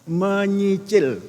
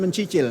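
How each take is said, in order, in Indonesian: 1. Suku kata kedua diawali bunyi 'ny'. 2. Suku kata kedua diawali bunyi 'c'. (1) "Menyicil, bukan mencicil" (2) "bukan mencicil"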